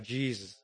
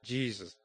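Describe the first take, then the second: First: The two syllables are mumbled and run together. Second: The same.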